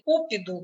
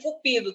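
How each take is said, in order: First: The stress is on the first syllable. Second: The stress is on the second syllable. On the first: Something eager and burning. "se você deslocar o acento tônico, você erra no sentido" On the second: The god of love. "elas são paroxítonas"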